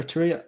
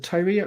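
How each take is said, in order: First: Tyria tried with the other pronunciation; alternative guess at Tyria. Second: Tyria tried one way, questioningly; first guess at Tyria. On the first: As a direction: offer a second way to say Tyria. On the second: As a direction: sound out Tyria as a first attempt. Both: Shown as a demonstration. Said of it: "I'm not sure how to pronounce it".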